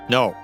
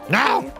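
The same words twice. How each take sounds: First: It is said in a plain, normal voice. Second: It is said in a put-on character voice.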